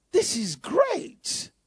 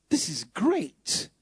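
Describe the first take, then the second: First: Slow, higher, marvelling delight; delighted lift. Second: Taste the words slowly as if in wonder; savouring it. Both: Acted. Savouring the verse twice.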